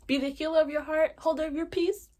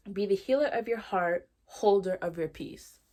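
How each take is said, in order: First: High, loud, hyped-up quote; excited repeat. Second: Deliberate quote reading, slowing on the second half. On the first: Host showing off favorite quote, high and excited. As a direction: proclaim it proudly, pitched way up. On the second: Host reading favorite tattooed quote, measured and deliberate. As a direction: read it out firmly, drawing out the ending. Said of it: "I'm gonna read it to you". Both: Real, not acted.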